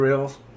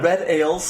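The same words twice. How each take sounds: First: The words are mumbled and run together. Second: The words are said clearly and kept apart. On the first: The speaker calls it wrong. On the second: The speaker calls it right.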